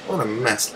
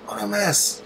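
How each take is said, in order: First: Said in the usual way. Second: High despairing wail; high exasperated lament. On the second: Real, not acted. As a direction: cry out at the sky in dismay, way up. Lamenting the sky.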